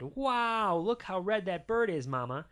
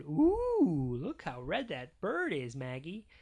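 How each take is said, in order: First: Lightly voiced dad, high loud "Wow"; a touch of fatherly wonder; amazed Daddy. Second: Cooing Mama. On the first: Daddy admiring a bird to Mama, lightly voiced amazement. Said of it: "And Daddy said". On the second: Mama showing baby Maggie a bird, lightly cooing. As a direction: coo a little at a baby. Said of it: "And Mama said". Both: A narrator's reading.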